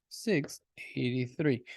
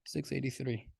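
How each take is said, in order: First: A slow whispered correction; whispered retake. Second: Soft, careful redo of the number; quietly correcting the number; quiet retake. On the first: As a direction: whisper "Six eighty-three" slowly. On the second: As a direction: say "Six eighty-three" again, much softer. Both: Shown as a demonstration. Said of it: "that six was trash".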